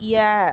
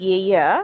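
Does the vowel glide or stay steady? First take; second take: steady; glide. First: The vowel stays a single steady eh. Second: The vowel glides from eh toward a schwa. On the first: This is how local speakers usually say it. "நம்மளோட ப்ரொனன்சியேஷனுக்கு" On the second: This is how native speakers say it. "Actual pronunciation is ஏய"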